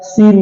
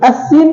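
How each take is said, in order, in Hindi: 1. शब्द सीधे 's' ध्वनि से शुरू होता है। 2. शब्द की शुरुआत में एक अतिरिक्त 'as' ध्वनि है। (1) "सीन बोलते हैं" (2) "अस्सीन कहीं बोलते हैं नहीं"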